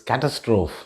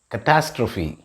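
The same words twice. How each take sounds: First: The ending does not rhyme with apostrophe. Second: The ending rhymes with apostrophe. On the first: The speaker calls it wrong. "Some of us might be tempted to pronounce this as" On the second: The speaker calls it right. "the right pronunciation of this word is catastrophe. It rhymes with apostrophe"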